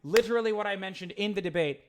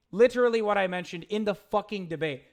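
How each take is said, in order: First: Said in the usual way. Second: Louder, annoyed repeat with the swear leaned on; exasperated repeat. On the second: Real, not acted. Streamer repeating himself to chat, louder and exasperated. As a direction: repeat it again, now fed up and louder.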